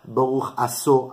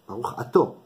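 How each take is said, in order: First: The second word has an s sound in the middle. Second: The second word has a t sound in the middle. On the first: The speaker calls it wrong. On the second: The speaker calls it right.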